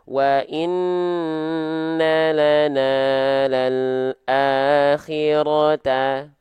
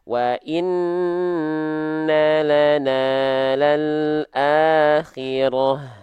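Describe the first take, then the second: First: The last word ends with a ta sound. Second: The last word ends with an h sound. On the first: The reader continues without stopping. "kalau nggak stop maka dia tetap dibaca menjadi tak biasa, tak maftuhah" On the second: The reader stops at this word. "kalau kita berhenti dibacanya hak besar"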